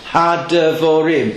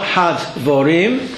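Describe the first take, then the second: First: The short vowel after the d is pronounced. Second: The short vowel after the d is silent. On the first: The speaker calls it right. "The dogish makes the shavo underneath pronounced" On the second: The speaker calls it wrong. "So it's not had-vorim"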